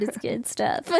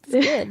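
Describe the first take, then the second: First: Whispered. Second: Said in the usual way. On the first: Shown as a demonstration.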